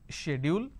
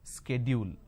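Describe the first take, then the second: First: It is said with the British pronunciation. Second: It mixes the British and American pronunciations. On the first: "the British pronunciation is schedule" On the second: "half of American pronunciation and we are taking half of British pronunciation"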